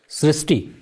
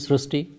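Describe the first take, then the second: First: The vowel after 'Sr' sounds like 'ee'. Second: The vowel after 'Sr' sounds like 'oo'. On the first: This is the familiar form of the name. "We have heard of Srishti" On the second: This is an unusual form of the name. "this is a very unique name"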